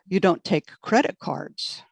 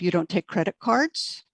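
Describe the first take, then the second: First: The pitch rises on the word credit. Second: The pitch does not rise on credit. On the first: The speaker calls it wrong. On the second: The speaker calls it right.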